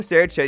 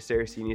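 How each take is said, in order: First: The name is said with Italian pronunciation. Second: The name is said with American pronunciation. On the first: "Saraceni is the Italian way" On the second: "Saraceni is how you and I would say it"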